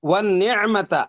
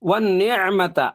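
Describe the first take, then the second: Both takes have the same delivery.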